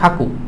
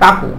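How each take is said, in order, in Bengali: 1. প্রথম ধ্বনিটি একটি শ্বাসযুক্ত, মহাপ্রাণ kh। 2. প্রথম ধ্বনিটি একটি সাধারণ, অল্পপ্রাণ k।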